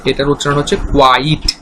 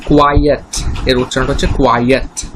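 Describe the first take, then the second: First: কোয়াইট said in one syllable, kwait; pronunciation demo. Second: কোয়াইয়েট said in two syllables, kwai-et; pronunciation demo. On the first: Teacher showing students how কোয়াইট is said, one syllable kwait. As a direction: clip কোয়াইট to a single beat, kwait. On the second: Teacher showing students how কোয়াইয়েট is said, two syllables kwai-et. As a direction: spell out কোয়াইয়েট as kwai-et, two clear beats. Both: Shown as a demonstration. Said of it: "সেটা আমি দেখিয়ে দিচ্ছি".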